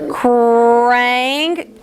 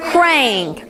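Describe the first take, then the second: First: Krang drawn out slowly; slow blend. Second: Krang said short and quick; said fast. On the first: Teacher modelling a slow blend for pupils. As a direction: stretch Krang into one long word. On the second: Teacher saying the word fast after the stretch. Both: Shown as a demonstration. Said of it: "Say it real fast".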